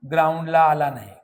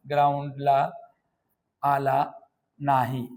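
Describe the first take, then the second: First: Said in the usual way. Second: "ग्राउंडला आला नाही" with long pauses between words; word-by-word dictation. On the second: Shown as a demonstration. Teacher repeats it word by word. ("ग्राउंडला आला नाही" एकेक शब्द थांबून)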